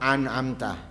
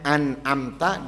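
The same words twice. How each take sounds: First: It begins with a throaty ain sound. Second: It begins with a light glottal stop. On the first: The speaker calls it wrong. "dia baca an amta, ain semuanya" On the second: The speaker calls it right. "apa mestinya an amta"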